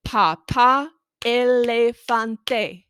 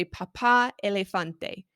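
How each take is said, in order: First: Papá elefante said very slow and loud, syllable by syllable; Papá elefante broken into clapped syllables. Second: Said in the usual way. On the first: Shown as a demonstration. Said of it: "you can clap and do the syllables". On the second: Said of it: "have them say".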